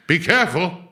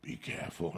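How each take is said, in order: First: Louder, higher overblown caution; mock loud warning. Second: Hushed, secretive whisper, much softer; whispered warning. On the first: People handing him edibles, hammed-up loud warning. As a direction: ham up the warning like a worried parent. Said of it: "At least been there". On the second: Retold or imitated. People handing him edibles, whispering a warning. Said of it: "When people give me edibles".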